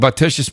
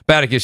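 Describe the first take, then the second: First: The name ends with a 'shus' sound. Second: The name ends with a 'kus' sound. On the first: The speaker calls it wrong. "I'm probably saying it wrong" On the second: The speaker calls it right. "Oh, Baticus, thank you. I apologize"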